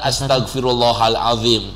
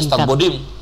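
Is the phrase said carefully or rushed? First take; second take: carefully; rushed. First: The phrase is said slowly with every syllable clear. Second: The phrase is rushed and its syllables are slurred. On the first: The phrase asks for forgiveness of sins. The speaker calls it right. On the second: The phrase carries no meaning. The speaker calls it wrong.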